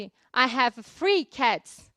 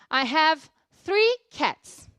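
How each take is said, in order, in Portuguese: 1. 'Three' começa com som de F. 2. 'Three' começa com um som de TH suave.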